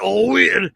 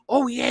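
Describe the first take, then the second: First: It is said in a gruff, growling put-on voice. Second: It is said in a normal, soft speaking voice. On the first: "like not oh yeah" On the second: "in my natural voice"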